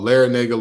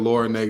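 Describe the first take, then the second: First: The name sounds like 'Larinaga'. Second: The name sounds like 'Lord Nega'. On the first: The speaker calls it right. "oh Larinaga" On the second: The speaker calls it wrong. "the nerve of me for pronouncing the A incorrectly"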